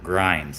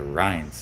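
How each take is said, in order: First: The word begins with a G sound. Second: The word begins with an R sound. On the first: The speaker calls it wrong. "all my life I called them pork grinds" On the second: The speaker calls it right. "they're rinds, Carol, they're rinds"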